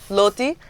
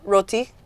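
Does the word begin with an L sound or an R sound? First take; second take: L sound; R sound. First: The word begins with an L sound. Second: The word begins with an R sound. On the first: "all the Chinese people say loti" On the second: "this is the correct word"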